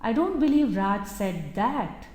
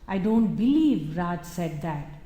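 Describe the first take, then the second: First: The word that carries the main stress. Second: The word believe carries the main stress. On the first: Something different may have been said instead. "He might have said something else, but not that" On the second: The speaker cannot believe such a thing was said. "it is about a disbelief. I can never believe Raj would say that"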